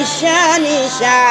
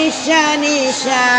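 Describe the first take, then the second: No difference in how they are said.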